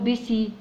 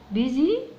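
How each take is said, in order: First: The middle consonant is an s sound. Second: The middle consonant is a z sound. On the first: The speaker calls it wrong. "مش هقول بيسي" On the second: The speaker calls it right. "هي ليها نطقها كده بيزي"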